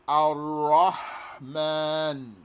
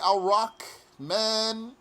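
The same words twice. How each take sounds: First: The middle consonant is a clear throaty h. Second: The middle consonant is a raspy kh. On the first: The speaker calls it right. "get that out of your throat nice and clear" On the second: The speaker calls it wrong. "Don't make it sound like a kha. Don't say"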